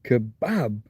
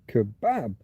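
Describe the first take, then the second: First: The stress is on the accented second syllable. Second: The same.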